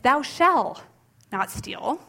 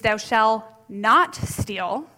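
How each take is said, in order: First: The stress is on "shall". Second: The stress is on "not".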